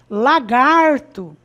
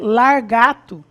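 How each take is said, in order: First: The r comes after the second syllable's vowel. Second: The r comes after the first syllable's vowel. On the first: The speaker calls it right. "que é o correto" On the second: The speaker calls it wrong. "Então eu vou dizer largato"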